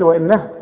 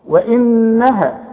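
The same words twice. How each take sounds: First: The doubled n is cut short without nasality. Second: The doubled n is held with nasal sound. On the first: The speaker calls it wrong. "اوعى تقول لي وانها" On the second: The speaker calls it right. "لازم تقف عندها وتغنها بمقدار حركتين"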